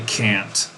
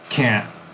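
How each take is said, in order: First: The word ends with a released T sound. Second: The word ends with a glottal stop. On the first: "I don't say can't" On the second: "There's no T, but there's a glottal stop there"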